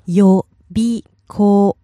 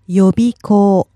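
First: It is said slowly, syllable by syllable. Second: It is said quickly at normal speed.

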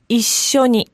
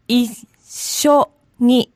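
First: The word is said quickly, at natural speed. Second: The word is said slowly, syllable by syllable. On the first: "And one time fast" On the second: "Break it down"

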